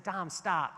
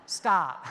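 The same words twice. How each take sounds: First: Said in the usual way. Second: Firm stop. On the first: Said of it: "and I said". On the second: Retold or imitated. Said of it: "I stood away, and I was like".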